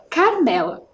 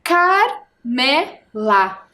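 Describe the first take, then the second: First: Said in the usual way. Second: "Carmela" split into Car, me, la with clear pauses; syllable by syllable. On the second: Shown as a demonstration. Teacher splitting the name for pupils, "Carmela" syllable by syllable. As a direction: slowly sound out "Carmela", one syllable at a time. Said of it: "A primeira sílaba é o car".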